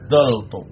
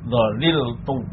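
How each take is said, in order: First: Two syllables, with an a vowel after dh. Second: Three syllables, with the middle syllable kept. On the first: "lam kalimahnya dibuang, fa kalimahnya harokatnya tetap" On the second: "Yang pertama itmam, artinya tetap tidak ada perubahan"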